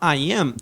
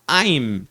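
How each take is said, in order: First: Two full words are said separately. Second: The two words merge into one syllable. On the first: "em vez da gente falar I am" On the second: "eu posso falar I'm"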